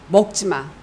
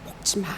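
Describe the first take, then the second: First: It is said in a harsh, threatening tone. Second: It is said in a gentle, worried, caring tone. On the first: Eating it will be punished. "약간 겁박인 거죠" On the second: The speaker fears for the listener's life. "정말로 걱정하고 염려하시는 마음으로"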